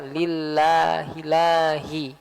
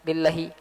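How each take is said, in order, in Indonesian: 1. Vokal sebelum h dibaca panjang. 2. Vokal sebelum h dibaca pendek. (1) "harusnya lillahilahi, harus ada alif" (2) "tanpa ada pemanjangan suara"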